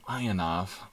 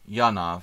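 First: The name begins with an 'eye' sound. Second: The name begins with a 'yah' sound. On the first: "Like ionization. Good English pronunciation" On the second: "Yanov, I should say"

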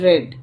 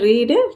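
First: The vowel is a short 'eh' sound. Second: The vowel is a long 'ee' sound. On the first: The action happened in the past. "Past டென்ஸில் ரெட்" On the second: The action happens in the present. "Present டென்ஸில் ரீடு"

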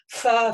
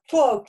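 First: The f has a heavy rush of air. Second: The f has the lower lip pulled inward. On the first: "должно быть умеренно вот этот гамс воздух, да, то есть не надо фа" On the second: "как будто ее эта губа половину во рту"

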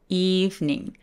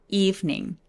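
Both takes have the same delivery.

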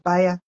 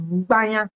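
First: The name starts directly with a b sound. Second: The name starts with a nasal m before b. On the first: This is the form as written on the page. "Mais quand j'écris sur la page, c'est Baya" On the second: This is how it is pronounced at home. "Mais quand il faut prononcer, c'est Baya"

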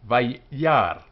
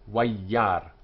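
First: The word begins with a v sound. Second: The word begins with a w sound. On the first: "But in our synagogue" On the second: "with the W sound for the Babylonian"

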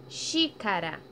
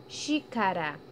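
No difference in how they are said.

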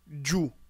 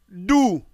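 First: The syllable starts with a dj sound. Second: The syllable starts with a plain d sound. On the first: The speaker calls it wrong. "Par abus de prononciation, dans certaines langues, on lira djou" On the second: The speaker calls it right.

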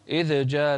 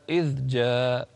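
First: The dh sound has an echoing bounce. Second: The dh sound is held smoothly without bounce. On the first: The speaker calls it wrong. "لا تقول إذ جاء" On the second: The speaker calls it right. "لا إذ جاء ماشي"

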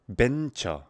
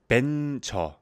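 First: The word begins with a B sound. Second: The same.

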